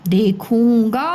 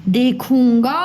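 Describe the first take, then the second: Both takes have the same delivery.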